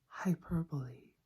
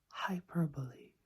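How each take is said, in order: No difference in how they are said.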